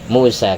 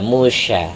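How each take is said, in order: First: The middle consonant is a plain s sound. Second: The middle consonant is a sh sound. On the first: This form is easier on the tongue when calling someone. "dibaca muhmalah ... karena itu yang enteng ke lidah" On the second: This is the original form of the name. "yang berasal dari sin titik tiga"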